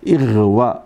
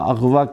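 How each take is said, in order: First: The word begins with an 'i' vowel. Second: The word begins with an 'a' vowel. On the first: The speaker calls it right. "असल में है ये इगवा" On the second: The speaker calls it wrong. "सारे लोग गलत बोलते हैं। अगवा अगवा अगवा कहते हैं"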